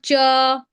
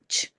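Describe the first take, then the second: First: A vowel sound follows the ch sound. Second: The ch sound is said alone, without a vowel. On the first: The speaker calls it wrong. "It's not cha" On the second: The speaker calls it right. "it's ch"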